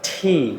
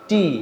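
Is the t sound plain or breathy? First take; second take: breathy; plain. First: The t comes with a soft puff of air. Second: The t is plain, with no puff of air. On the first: The speaker calls it right. "It's ঠি" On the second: The speaker calls it wrong. "আমরা যেটা শিখেছি টি, but it's not টি"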